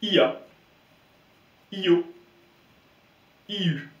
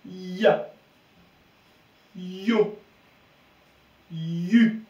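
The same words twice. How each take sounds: First: "ia", "Io", "Iu" split into a clear i plus vowel, high and loud; separate I vowel. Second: Long Y glide into one syllable in "Ya. Yo. Yu.", higher pitch. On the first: Teacher showing what not to say, i as separate vowel. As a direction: hit a full i without any glide in "ia. Io. Iu.". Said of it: "Et non pas". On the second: Teacher giving the correct reading before a vowel, stretched Y glide. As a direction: press and stretch the Y in "Ya", "Yo", "Yu", release on the vowel. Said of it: "on va dire le son y". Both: Shown as a demonstration.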